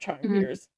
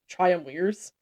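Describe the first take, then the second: First: The middle consonant is a V sound. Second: The middle consonant is a W sound. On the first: This is the familiar English pronunciation. "and not" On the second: This is the original Latin pronunciation. "in Latin B's are pronounced as W's ... technically triumvirs"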